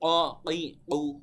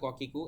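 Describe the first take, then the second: First: The consonant comes from deep in the throat. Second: The consonant is a plain front k sound. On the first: The speaker calls it right. "বলতে হবে" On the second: The speaker calls it wrong. "এভাবে নর্মালি বাংলার মতো বলে দেওয়া যায়, কিন্তু এভাবে বলে দেওয়া যাবে না"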